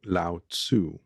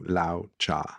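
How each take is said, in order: First: The name follows an English reading of its spelling. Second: The name follows an approximate Chinese pronunciation. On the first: The speaker calls it wrong. "given the way that the name is spelled and my English interpretation of it" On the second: The speaker calls it right. "in the Chinese, ... it is closer to"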